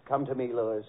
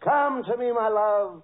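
First: Low-pitched romantic murmur, acted; imitated seductress. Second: Higher, swelling romantic plea, acted; imitated seductress. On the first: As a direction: coax a lover, low and tender. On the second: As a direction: call a lover ardently, hammed-up. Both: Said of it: "Marilyn looks into your eyes and says".

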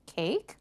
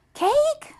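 First: Said in the usual way. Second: Very high, loud squeal rising at the end; excited question. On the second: A narrator's reading. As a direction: pounce on the word with delight. Little sister hears of cake.

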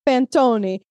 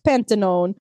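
First: "panettone" as pan-TOH-nee; stressed "toh" and a closing "nee" in "panettone"; corrected pronunciation. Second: "Pantanone" read as English, PAN-tuh-nohn; mispronounced panettone. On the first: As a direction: say "panettone" with the final e sounded as "ee". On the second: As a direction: say "Pantanone" with a silent final e, ending in "nohn". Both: Shown as a demonstration. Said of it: "figure out how to pronounce it".

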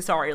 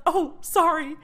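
First: Low, short "Sorry"; flat sorry. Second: High, flustered "Oh, sorry"; flustered apology. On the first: Apologizing again to the instructor: low flat sorry. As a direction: drop it low and plain. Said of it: "And I say". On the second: Triggered in class, apologizing to the instructor: high flustered sorry. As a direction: apologize on reflex, a bit flustered. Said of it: "I'll be like". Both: Retold or imitated.

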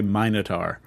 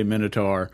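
First: "Minotaur" with a long i, MINE-uh-tar; British pronunciation. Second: "Minotaur" with a short i, MIN-uh-tar; American pronunciation. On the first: Podcast host showing co-host how Brits say it, "Minotaur" with long i. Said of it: "how British people say Minotaur". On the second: Podcast host showing co-host how Americans say it, "Minotaur" with short i. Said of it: "how Americans say Minotaur". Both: Shown as a demonstration.

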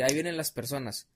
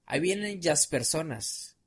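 First: Said in the usual way. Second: "jazz" said "yas", L turned into Y; slow demo, "jazz" with a Y sound; mispronounced L. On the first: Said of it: "en lugar de decir". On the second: Retold or imitated. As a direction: imitate the speech defect on "jazz". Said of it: "La pronunciaba como doble L".

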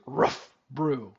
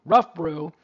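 First: Said in the usual way. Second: "Rough Brew" hit much louder; punched pun. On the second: Shown as a demonstration. Host repeating his pun to listeners, loud punch.

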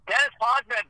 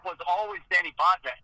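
First: "Dennis Potvin" with the English name "Dennis", said a little higher; the anglicized "Dennis" before the correction. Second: "Denny Potvin" with the French-style "Denny"; the name as heard growing up in Ottawa. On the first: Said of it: "for me". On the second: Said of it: "for me growing up". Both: Shown as a demonstration.

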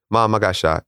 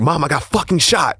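First: Steady, even report of being shot; very calm. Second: Finally losing patience with her; exasperated insisting. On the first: Son calmly telling mom he got shot, very calm. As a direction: keep it level and unbothered. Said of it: "but I'm very calmly". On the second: Son insisting to doubtful mom he's shot, exasperated. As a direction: pitch jumps much higher, pushing hard on fucking. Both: Retold or imitated.

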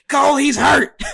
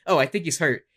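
First: Loud, high-pitched imitation of an excited commentator; Booker T. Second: Understated remark, a mild imitation; Michael Cole. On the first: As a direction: shout it like an alarmed ringside announcer. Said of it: "And then Booker T's like". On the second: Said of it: "Michael Cole doing".

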